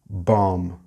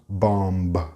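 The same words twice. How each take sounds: First: The final B sound is not pronounced. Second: The final B sound is clearly pronounced. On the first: The speaker calls it right. "The B at the end is silent" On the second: The speaker calls it wrong. "It's not bomb"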